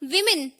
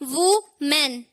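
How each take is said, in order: First: The first syllable sounds like 'wi'. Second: The first syllable sounds like 'woo'. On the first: The speaker calls it right. "सही pronunciation क्या होगा? विमेन" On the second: The speaker calls it wrong. "It is not वुमेन"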